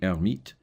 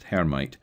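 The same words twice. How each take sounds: First: The initial H is silent. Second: The initial H is pronounced. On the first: The speaker calls it right. "it should be" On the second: The speaker calls it wrong. "it's usually pronounced"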